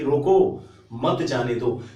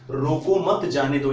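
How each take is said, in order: First: There is a pause after रोको. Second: There is a pause after मत.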